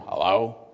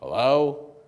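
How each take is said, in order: First: The voice is low and deep. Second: The voice is raised slightly higher.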